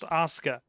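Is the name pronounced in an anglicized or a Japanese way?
Japanese. The name has its native Japanese pronunciation. The speaker calls it right. "is pronounced Asuka in Japanese"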